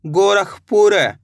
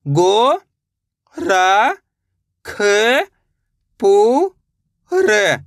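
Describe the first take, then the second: First: Said in the usual way. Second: गो, र, ख, पू, र each drawn out alone; long gaps between गो, र, ख, पू, र; syllable by syllable. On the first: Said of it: "तो मिलके बन जाएगा". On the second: Shown as a demonstration. Teacher breaking a name down, गो, र, ख, पू, र sounded out singly. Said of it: "एक एक अक्षर का उच्चारण करके".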